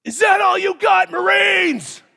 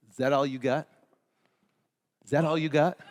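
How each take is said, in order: First: High, loud drill instructor bark; drill instructor yell. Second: Low, softer taunting repeat; quieter drill instructor taunt. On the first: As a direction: yell like a Marine drill sergeant at recruits. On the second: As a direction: drop it down and needle them. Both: Retold or imitated. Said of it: "they would turn around and they go".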